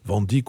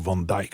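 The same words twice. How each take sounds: First: The name is said with a French pronunciation. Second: The name is said with a Dutch pronunciation.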